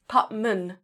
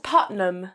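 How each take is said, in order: First: "Putman" with the m before the n; corrected surname. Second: "Putnam" with the n before the m; mispronounced surname. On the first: Correcting the game master on own surname, "Putman" said PUT-mun. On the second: Quoting the colleague's slip on a surname, "Putnam" said PUT-num. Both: Shown as a demonstration. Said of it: "You said Putnam".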